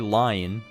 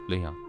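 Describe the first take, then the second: First: The first vowel sounds like 'lie'. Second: The first vowel sounds like 'lee'. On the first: The speaker calls it wrong. "I will not say lion" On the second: The speaker calls it right. "But pronounced Leon"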